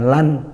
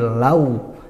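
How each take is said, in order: First: It ends with a clear n sound. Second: It ends gliding into a w sound. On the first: The speaker calls it wrong. "bukan lan" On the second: The speaker calls it right. "tapi lau, langsung ke wawu"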